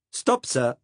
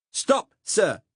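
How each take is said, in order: First: Lightly voiced Saxon accent, firm call; a young Saxon conscript politely halting him, hint of accent; Saxon German accent. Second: Put-on loud, high Saxon-accented order; the conscript repeating his order, now shouting; Saxon German accent. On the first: Young Saxon cop calling on the narrator to halt, lightly Saxon-accented. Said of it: "in that unmistakable accent". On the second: Saxon cop ordering the narrator to halt, loud Saxon accent. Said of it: "said the cop again".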